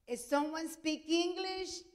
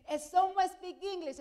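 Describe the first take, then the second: First: Slow, high, loud call to the crowd; doctor calling out, drawn out and loud; calling out to the room. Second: High, loud repeated call; calling out again. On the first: Doctor calls out to waiting room. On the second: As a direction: call it again, even louder, to the crowd. Doctor asks again, louder. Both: Retold or imitated.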